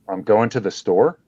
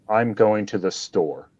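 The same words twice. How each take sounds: First: It is said like a question. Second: It is said as a plain statement.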